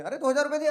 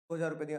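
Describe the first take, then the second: First: High, loud mock disbelief at "दो हज़ार रुपये दिए"; mock astonishment. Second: Said in the usual way. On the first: Owner feigns shock when asked to repay, loud and high. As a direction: exclaim it as if the amount is outrageous.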